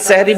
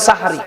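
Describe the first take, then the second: First: The first vowel is 'e', as sehri. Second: The first vowel is 'a', as sahari. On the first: It means magic. The speaker calls it wrong. "আর সেহরি বলবেন না" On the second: It means the pre-dawn meal before fasting. The speaker calls it right. "এটা হবে সাহারি"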